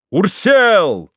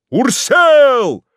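First: Higher, louder called name; crowd shout. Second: Much higher, louder yelled name; crowd yell. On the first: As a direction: call the name over the crowd. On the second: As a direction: yell the name at full force. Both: A narrator's reading. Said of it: "постепенно усилившийся до крика".

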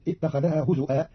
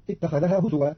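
First: هزوا said "huzu'a", with glottal stop; hamza for waw. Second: Said in the usual way. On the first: Shown as a demonstration. Teacher showing Qalun's reading, هزوا said "huzu'a". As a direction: break هزوا with a hamza instead of w. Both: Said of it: "بهمز بدل الواو".

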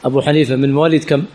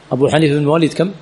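Both takes have the same delivery.

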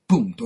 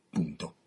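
First: "Punto" snapped out loud and final, falling hard; firm full stop. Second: "punto" dropped low and soft, settled; quiet final full stop. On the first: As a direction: slam the door with "Punto". Connery closes the topic firmly. ("Punto" detto forte e secco) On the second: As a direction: let "punto" fall away, done with it. Second, quieter closing word. ("punto" sommesso e basso, conclusivo) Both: Acted.

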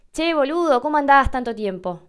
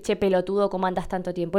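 First: Put-on bright, higher, louder affectionate hello to an old friend; friendly greeting. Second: Said in the usual way. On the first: Shown as a demonstration. Greeting an old friend after a long time, affectionate. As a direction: greet a buddy you've missed. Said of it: "Yo le puedo decir a un amigo". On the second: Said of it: "Pero no le voy a decir".

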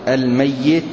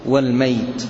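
First: الميت with a doubled yaa, al-MAY-yit; doubled-yaa reading. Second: والميت with a still yaa, wal-MAYT; light-yaa reading. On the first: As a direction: stress the doubled y in الميت, then a short i. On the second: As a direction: glide through والميت as one long mayt, no doubled y. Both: Shown as a demonstration. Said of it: "ترد بالوجهين في القراءات".

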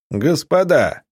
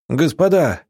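First: A captain hails the besieged through a megaphone. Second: A sudden alarmed shout, louder and higher. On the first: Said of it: "усиленный мегафоном голос". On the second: A small militiaman shouts the alarm from the window. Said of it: "вдруг закричал". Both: A narrator's reading.

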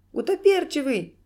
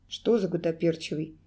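First: High, loud squealed cry; sudden squeal. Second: Lower-pitched, guarded query; frowning question. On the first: Clown suddenly naming the culprit, squealing. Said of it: "вдруг взвизгнул клоун". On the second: Serge questioning the clown, frowning query. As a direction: ask it low, with a frown. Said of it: "переспросил Серж, хмурясь". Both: A narrator's reading.

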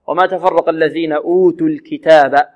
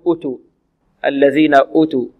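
First: Recited verse with a long oo opening أوتوا; pronounced waw. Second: أوتوا with a short first u, utu; missing waw. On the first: Teacher reciting the correct reading, waw pronounced. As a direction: hold the first vowel of أوتوا, ootu. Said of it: "هذه الواو مكتوبة ومنطوقة". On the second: Teacher imitating a reader's mistake, waw dropped. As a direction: clip the opening vowel of أوتوا, no long oo. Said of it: "يقرأها بدون واو فيقول". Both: Shown as a demonstration.

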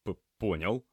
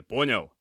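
First: Stammered, uncertain assent; flustered reply. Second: Loud, higher, snapped question; demanding check. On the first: A narrator's reading. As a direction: trip on the first sound, overwhelmed. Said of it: "растерянно кивнул Кирилл". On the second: Acted. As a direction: demand confirmation from a trainee. Medic demands trainee confirm.

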